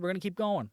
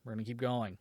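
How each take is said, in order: First: Said in the usual way. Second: Softer, lower self-soothing repeat; settling back into calm after anger. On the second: Real, not acted. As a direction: talk yourself down quietly. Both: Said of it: "I'm gonna calm down a little bit".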